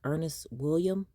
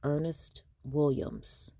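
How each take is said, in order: First: The name ends without a final s sound. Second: The name ends with a final s sound. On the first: The speaker calls it wrong. "won't pronounce the letters at the end of a word" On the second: The speaker calls it right. "it's Ernest Williams"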